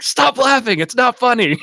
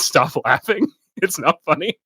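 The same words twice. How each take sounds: First: High-pitched, louder scolding imitation; mock scream. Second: Half-hearted imitation of yelling, amused; mild mock yell. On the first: Comedian scolding the crowd on Letterman, mock screaming. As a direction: imitate an exasperated yell at a crowd. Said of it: "just screaming at the crowd". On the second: Stand-up comedian to the audience, mild mock yell. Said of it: "yelling at the audience".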